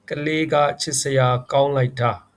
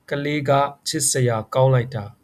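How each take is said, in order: First: "Ka le ga chit sa ya kaung lai ta" with Burmese tones; Burmese model phrase. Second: "Ka le ga chit sa ya kaung lai ta" repeated with Burmese tones; repeat for students. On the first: Teacher models the phrase for learners. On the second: Teacher repeats it for learners to copy. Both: Shown as a demonstration. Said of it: "We can say that".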